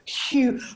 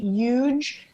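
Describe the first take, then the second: First: The word starts with an h sound. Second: The word starts without an h sound. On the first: "as opposed to" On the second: "we don't pronounce the H. In, so I say huge"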